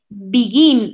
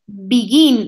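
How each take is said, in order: First: The stress is on the second syllable. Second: The stress is on the second syllable.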